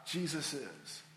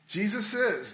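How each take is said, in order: First: Dropped low and much softer, almost to himself; hushed. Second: Said in the usual way. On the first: Real, not acted. Preacher to congregation, a hushed low Jesus is. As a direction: let it fall away into a near-hush.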